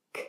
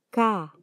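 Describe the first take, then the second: First: K as a bare voiceless click of "k"; just the consonant K, no vowel; letter sound K. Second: Said in the usual way. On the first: Shown as a demonstration. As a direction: release a short "k" for K, without voice. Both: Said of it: "se pronuncia".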